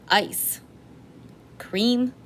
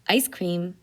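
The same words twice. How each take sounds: First: There is a pause between ice and cream. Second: Ice and cream run together without a pause. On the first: Ice and cream are two separate things. The speaker calls it wrong. "Here I have each thing separated out as it is with the commas" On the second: It is one food, ice cream. The speaker calls it right. "Let's get rid of that comma"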